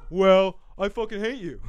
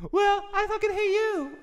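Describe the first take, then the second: First: Louder play-acted hate in chest voice; hammed-up angry retort; mock arguing. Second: Very high falsetto hate; hammed-up falsetto quarreler; bickering partner. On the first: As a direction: snipe back as the natural-voiced partner. Acting both sides, own register. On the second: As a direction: echo it back in a squeaky put-on voice. Acting both sides, falsetto partner.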